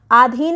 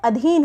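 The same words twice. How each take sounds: First: आधीन said with a long first aa; आधीन starting with a drawn-out aa; wrong long vowel. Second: अधीन said with a short first a, adheen; अधीन with a short first vowel; correct short vowel. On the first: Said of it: "आधीन नहीं होता है". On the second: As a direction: clip the opening a of अधीन. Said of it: "अधीन होता है". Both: Shown as a demonstration.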